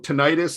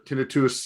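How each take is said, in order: First: It is said the American way. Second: It is said the European way. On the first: "if we're in the U S" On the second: "if we're in Europe"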